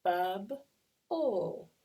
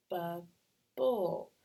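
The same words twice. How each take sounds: First: Loud "Bub", pause, loud "ul"; split into syllables. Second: "bub", pause, louder "bull" starting on b; two beats, with the second b heard in bull; split into syllables. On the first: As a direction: sound out Bub and ul as separate beats. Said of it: "let's try another one". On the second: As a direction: sound out bub, then bull. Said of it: "I'm gonna break it apart". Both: Shown as a demonstration.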